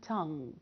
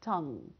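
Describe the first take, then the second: No difference in how they are said.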